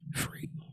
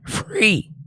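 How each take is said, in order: First: The word is said quietly. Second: The word is said loudly.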